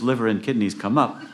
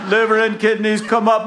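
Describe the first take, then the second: First: Said in the usual way. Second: High, loud comic holler; yelling down. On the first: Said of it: "And when he hears". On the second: Acted. Jack yelling to the fallen package, high holler. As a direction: yell it high down to the water. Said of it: "So he yells down".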